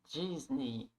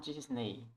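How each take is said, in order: First: The last vowel sounds like 'ee'. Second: The last vowel sounds like 'e'. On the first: The speaker calls it right. "A gente não fala E, mas I" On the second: The speaker calls it wrong. "e não Disney"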